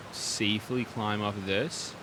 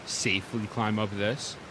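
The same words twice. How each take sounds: The two takes are said the same way.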